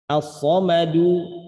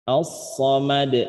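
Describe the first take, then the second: First: The word ends with a final short u vowel. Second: The word ends on a stopped d consonant. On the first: The reader continues without stopping. "ada dal harokatnya dhammah" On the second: The reader stops at this word. "ketika berhenti bacanya menjadi as-somad"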